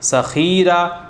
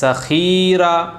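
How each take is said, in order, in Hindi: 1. दूसरे अक्षर का स्वर खींचा गया है। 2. दूसरे अक्षर का स्वर खींचा गया है।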